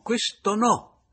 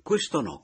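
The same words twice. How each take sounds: First: "questo no" lento, acuto e forte; enfatico. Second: Said in the usual way. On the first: A narrator's reading. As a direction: ribadisci "questo no" allungando il no. ("questo no" scandito con forza) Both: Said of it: "interloquì Papiano".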